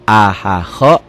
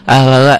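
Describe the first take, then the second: First: The word is said at a calm pace. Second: The word is said too quickly. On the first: The speaker calls it right. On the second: The speaker calls it wrong.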